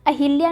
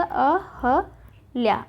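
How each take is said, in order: First: अहिल्या with "hil"; अहिल्या, i in the middle; wrong form shown. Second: अहल्या very slowly as a... ha... lyā; slow, spaced अहल्या; correct form, broken up. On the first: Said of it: "न होके". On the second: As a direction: spell out अहल्या syllable by syllable with "hal". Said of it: "क्या होगा?". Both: Shown as a demonstration.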